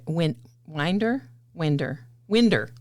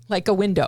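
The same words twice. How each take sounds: First: Winder with a nasal in and an er ending; winder for window. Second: Said in the usual way. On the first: Shown as a demonstration. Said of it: "and wind".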